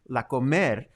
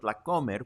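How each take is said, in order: First: The stress is on the second syllable of comer. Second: The stress is on the first syllable of comer. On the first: It sounds like the verb meaning to eat. The speaker calls it wrong. "another common mistake is when people call la comer" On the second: It is the shortened name of the store. The speaker calls it right. "with an accent on the o"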